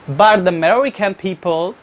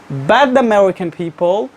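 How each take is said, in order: No difference in how they are said.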